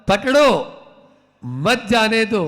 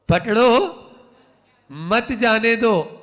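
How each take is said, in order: The two takes are said the same way.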